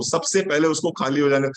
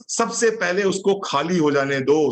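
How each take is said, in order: First: Said in the usual way. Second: "सबसे पहले उसको खाली हो जाने दो" said slowly, each word weighed; slow emphasis. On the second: Shown as a demonstration. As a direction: lay out the rule slowly so it sinks in. ("सबसे पहले उसको खाली हो जाने दो" धीरे और ज़ोर देकर)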